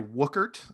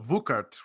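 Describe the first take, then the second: First: The name is said with an anglicized pronunciation. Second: The name is said with a German pronunciation. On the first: This is how the speaker usually says it. "I would normally say" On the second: This is how German relatives would say it. "Grandma in the in the in the fatherland would have said"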